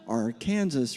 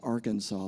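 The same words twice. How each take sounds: First: It is said the local Kansas way. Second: It is said like the state name. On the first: This is how locals in Kansas say it. "in Kansas we pronounce it" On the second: This is how the spelling suggests it. "it's spelled like Arkansas"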